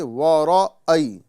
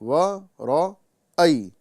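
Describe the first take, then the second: First: The middle glottal stop is weak or dropped. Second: The middle glottal stop is fully and clearly articulated. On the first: The speaker calls it wrong. "नहीं" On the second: The speaker calls it right. "हमज़ा को तहक़ीक़ के साथ अदा करेंगे"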